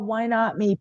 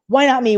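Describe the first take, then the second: First: It sounds sorry and self-pitying. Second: It sounds confident and determined. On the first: One feels sorry for oneself. The speaker calls it wrong. "I was emphasizing the wrong things" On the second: Success is possible for oneself too. The speaker calls it right. "It became a victor's mentality"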